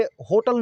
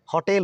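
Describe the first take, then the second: First: "होटल" with closed 'o' and weak ending, HOH-tal; mispronunciation. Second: "होटेल" with open 'haw' and long 'tel'; correct pronunciation. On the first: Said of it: "ये होटल नहीं है". ("होटल" में गोल 'ओ' और अंत में 'टल') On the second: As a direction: say "होटेल" as haw-TEL. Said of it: "बल्कि इसको". ("होटेल" को 'हॉटेल' बोलें, हल्का खुला 'ऑ') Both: Shown as a demonstration.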